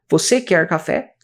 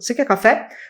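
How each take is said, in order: First: Each word is said separately and distinctly. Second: The words run together as one unit. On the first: The speaker calls it wrong. "A gente não fala assim" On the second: The speaker calls it right. "a gente fala tudo grudado"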